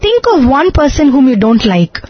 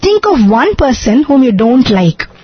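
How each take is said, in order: First: No words get extra stress. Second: Extra stress falls on one and don't like.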